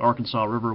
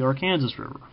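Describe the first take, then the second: First: Arkansas is said the usual way. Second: Arkansas is said the Kansas way.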